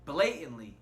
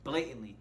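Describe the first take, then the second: First: Blatantly stressed, louder; emphasize blatantly. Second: Blatantly said firmly; emphasize blatantly. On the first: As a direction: lean on blatantly. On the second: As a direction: stress blatantly again. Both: Shown as a demonstration. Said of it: "let me highlight the word and emphasize the word".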